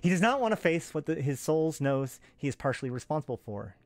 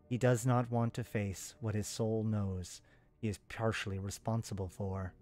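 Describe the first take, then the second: First: It is voiced as the female speaking character. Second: It is voiced as a different character.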